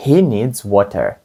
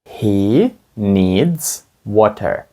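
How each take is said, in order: First: Said in the usual way. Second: Very slow, word by word; slow teacher demonstration; slow model sentence. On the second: Shown as a demonstration. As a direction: spell it out slowly for the class. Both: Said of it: "Скажіть, йому потрібна вода".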